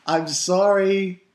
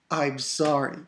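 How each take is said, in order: First: Mock drawn-out apology. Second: Said in the usual way. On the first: Shown as a demonstration. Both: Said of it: "I'm dead serious".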